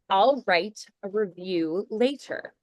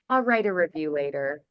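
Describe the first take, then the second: First: Every sound is pronounced fully and carefully. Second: The sounds are shortened and run together quickly. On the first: "you can say it with that much diction" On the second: "I probably would minimize it a little bit"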